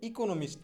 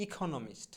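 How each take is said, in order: First: Said in the usual way. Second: ইকোনমিস্ট with a puffed, aspirated kh for the k; corrected pronunciation. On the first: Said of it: "মোটেও ইকোনমিস্ট না". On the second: Shown as a demonstration. Teacher correcting economist, ইকোনমিস্ট with aspirated "kho". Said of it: "সঠিক উচ্চারণটা হবে এইরকম".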